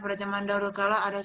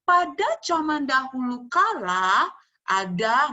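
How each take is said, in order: First: It is read lazily in a flat, dull voice. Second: It is told clearly in a lively, convincing voice. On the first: The teller sounds like they are merely reading. The speaker calls it wrong. "kamu cuma malas seperti membaca" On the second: The teller sounds confident and engaging. The speaker calls it right. "harus jelas ... nah seperti itu, harus meyakinkan"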